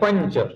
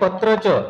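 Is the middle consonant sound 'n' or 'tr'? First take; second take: n; tr. First: The middle consonant is pronounced as 'n'. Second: The middle consonant is pronounced as 'tr'. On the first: The speaker calls it right. "ये है पंच" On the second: The speaker calls it wrong. "ये है पत्रच"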